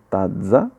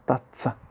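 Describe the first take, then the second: First: The z is voiced, like dz. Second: The z is voiceless, like ts. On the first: The speaker calls it wrong. "non è tazza" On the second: The speaker calls it right. "ma è tazza ... Z sorda"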